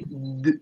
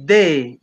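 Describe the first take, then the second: First: The d is said alone, without a vowel. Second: The d is followed by a vowel. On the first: The speaker calls it right. "you say d" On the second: The speaker calls it wrong. "you don't say de"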